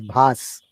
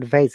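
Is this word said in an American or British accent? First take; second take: British; American. First: It is said with a British accent. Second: It is said with an American accent. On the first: The speaker calls it right. "it is vase" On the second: The speaker calls it wrong. "It is not vase"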